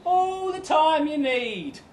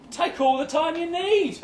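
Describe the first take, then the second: First: High and slow, stretched words; slow, high-pitched brave face; drawn-out forced reassurance. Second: High-pitched, over-accommodating reply; high, forced reassurance; putting on brave face. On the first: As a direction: repeat it high, dragging out every word. Repeats the brave reply, drawn out. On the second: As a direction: pitch it up, trying to sound fine about it. Acted reply to a stalled proposal. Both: Acted.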